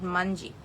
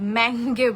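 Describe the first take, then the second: First: The name is said with a j ending. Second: The name is said with a hard g ending. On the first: This is the local way people say it. The speaker calls it wrong. "It's not মানজি" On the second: This is the original Indonesian name. The speaker calls it right. "এটা হচ্ছে ম্যাঙ্গে বলে, but Indonesian ভাষা"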